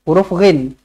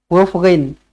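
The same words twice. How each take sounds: The two takes are said the same way.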